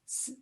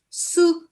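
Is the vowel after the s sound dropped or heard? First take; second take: dropped; heard. First: Only the s sound is heard, no vowel. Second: The syllable ends with a clear u vowel. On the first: The speaker calls it right. "I pronounce it as s" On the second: The speaker calls it wrong. "I don't pronounce su"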